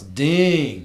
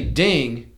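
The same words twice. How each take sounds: First: The vowel is held long. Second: The vowel is said short. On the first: It means squirrel. "It means you have to say it longer. So it's ding" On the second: It is not a word. "if I say ding, and it's not anything"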